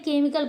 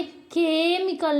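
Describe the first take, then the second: First: केमिकल starting on a simple K; silent H. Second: केमिकल with a breathy "kh" and drawn first vowel; H pronounced. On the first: Teacher giving the correct reading, केमिकल with silent H. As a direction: say केमिकल as "ke-mikal". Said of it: "केमिकल पढ़ते हैं". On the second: Teacher showing learners the mistake, केमिकल with sounded H. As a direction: start केमिकल as "khe-mikal". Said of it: "यहाँ पे केमिकल नहीं होता है". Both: Shown as a demonstration.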